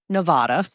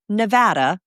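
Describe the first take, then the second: First: It is said the way outsiders say it. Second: It is said the way locals say it. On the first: This is how outsiders say the name. The speaker calls it wrong. "not Nevada" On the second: This is how residents say the name. The speaker calls it right. "The locals call it Nevada"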